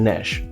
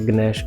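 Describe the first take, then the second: First: The word begins directly with an n sound. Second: The word begins with a hard g sound. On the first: The speaker calls it right. "ਜੀ silent" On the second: The speaker calls it wrong. "ਇੱਥੇ ਗਨੈਸ਼ ਗਲਤ ਹੈ"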